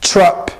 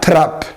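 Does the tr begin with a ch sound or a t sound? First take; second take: ch sound; t sound. First: The tr starts with a ch-like sound. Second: The tr starts with a plain t sound. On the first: The speaker calls it right. "It's trap" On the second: The speaker calls it wrong. "Not trap"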